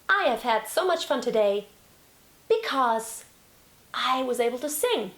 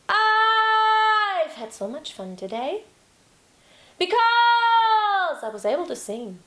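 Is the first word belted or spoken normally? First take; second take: normal; belted. First: The first word is spoken at a normal level. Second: The first word is slow, high and loudly belted.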